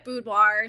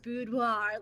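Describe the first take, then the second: First: The word is said with a plain American accent. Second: The word is said with a fancy French-style accent. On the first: "I say a boudoir. ... I keep it very American" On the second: "my mom goes boudoir, like super fancy"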